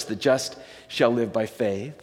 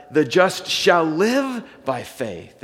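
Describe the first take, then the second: First: Said in the usual way. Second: Slow, leaning hard on live; preacher stressing the words shall live, slowly and firmly. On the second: Shown as a demonstration. Pastor showing the congregation where Galatians puts the weight, stressing shall live. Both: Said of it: "his emphasis on, is on "shall live".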